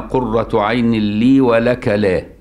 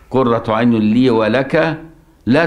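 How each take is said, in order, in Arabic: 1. تتوقف التلاوة مباشرة بعد كلمة la. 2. تستمر التلاوة بعد la دون توقف. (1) "وقف عند لا" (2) "ولما وصل لا تقتلوه"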